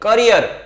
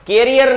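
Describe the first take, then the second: First: The first vowel sounds like 'kuh'. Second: The first vowel sounds like 'keh'. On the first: The speaker calls it right. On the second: The speaker calls it wrong. "કેરિયર નહીં"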